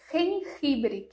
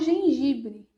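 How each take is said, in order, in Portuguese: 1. Os primeiros sons são rs suaves, guturais. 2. Os primeiros sons são zh suaves. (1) "já tem o som dos dois, né? Do J e do G" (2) "que é o gengibre"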